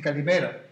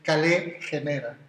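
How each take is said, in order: First: Said as one run-together word, modern Greek style. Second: Said as two separate words, read like Spanish. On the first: "y en griego, cuando te saludas, te dicen calimera" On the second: "en el griego que a mí me enseñaron, el clásico, que es leerlo como si fuera en castellano"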